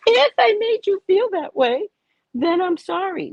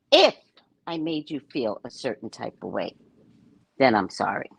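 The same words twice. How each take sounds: First: Mocking, very high-pitched quote; exaggerated high mimicry, leaning on "if"; Oprah. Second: "if" pitched up and held apart, the rest low; measured quote with a loaded "if"; stress on IF. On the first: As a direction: parody a hedged apology in a squeaky high voice. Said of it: "Oprah goes". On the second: Retold or imitated. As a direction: lean on "if", pause, then drop low for the apology. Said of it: "It's a play on words".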